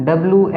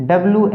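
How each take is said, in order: Both takes have the same delivery.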